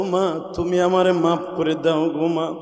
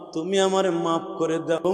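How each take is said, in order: First: A son's slow sorrowful appeal to his mother; tearful plea. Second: Half-sing the son begging his mother; slow lilting chant of a son begging pardon; chanted plea. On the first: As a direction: stretch the words like a crying son. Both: Retold or imitated. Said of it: "মার পা দুটো জড়াই ধরে বলে".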